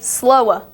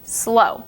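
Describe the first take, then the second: First: An extra W sound ends the word. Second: The word ends on the vowel, no W. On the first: The speaker calls it wrong. "But you don't say slowa" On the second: The speaker calls it right. "you say slow. You don't pronounce the W at the end"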